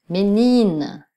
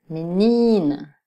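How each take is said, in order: The two takes are said the same way.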